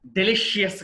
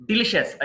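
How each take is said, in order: First: డెలిషియస్ ending in "shi-yes"; wrong pronunciation. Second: డెలిషియస్ ending in "shus"; correct pronunciation. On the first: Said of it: "కాదు". (డెలిషియస్ "డె-లి-షి-యెస్" అని తప్పుగా) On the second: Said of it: "డెలిషియస్ కాదు". (డెలిషియస్ "డి-లి-షస్" అని) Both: Shown as a demonstration.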